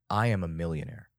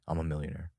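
First: The words are said confidently, with strong feeling. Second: The words are said flatly, without feeling. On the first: The affirmation carries real feeling and belief. The speaker calls it right. "you're adding an emotion to the affirmation... spicing it up with confidence" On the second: The affirmation has no feeling behind it. The speaker calls it wrong. "if you say it like that, what do you think is... Nothing's going to happen"

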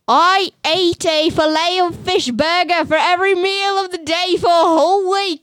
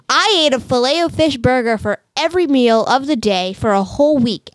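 First: It is read in a put-on Australian accent. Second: It is read in the speaker's ordinary accent.

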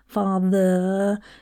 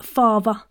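First: The middle sound is said like a th. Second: The middle sound is said like a v. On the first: The speaker calls it wrong. "you don't say" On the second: The speaker calls it right. "your THs often become like a V"

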